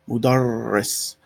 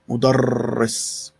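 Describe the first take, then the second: Both takes have the same delivery.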